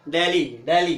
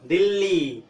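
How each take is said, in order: First: दिल्ली as hard retroflex Deli, as in English; English-style pronunciation. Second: दिल्ली with a dental d; Hindi pronunciation. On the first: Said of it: "English में क्या बोलते हैं". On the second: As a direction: say दिल्ली the Hindi way, tongue on the teeth. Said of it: "Hindi में क्या बोलते हैं". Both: Shown as a demonstration.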